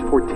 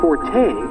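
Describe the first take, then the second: First: The name is said with a French-Canadian pronunciation. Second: The name is said with an American English pronunciation. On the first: The speaker calls it right. "for our Canadian, uh, French-Canadian friends, it's Forte" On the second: The speaker calls it wrong. "the very literal American English version"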